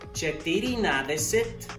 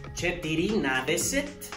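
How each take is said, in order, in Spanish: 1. Se dice cada sílaba de la forma completa. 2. Se dice cada sílaba de la forma completa.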